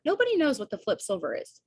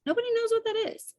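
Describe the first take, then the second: First: Raised pitch, mildly exasperated; emphatic exasperation. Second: Squeaky-high, quick insistence; high-pitched exasperation. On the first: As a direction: stress that nobody has a clue. Exasperated at unexplained jargon. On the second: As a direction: leap up high and rattle it off. Exasperated repeat, much higher. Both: Real, not acted.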